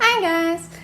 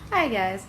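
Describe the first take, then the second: First: It is said in a high-pitched voice. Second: It is said in a lower voice.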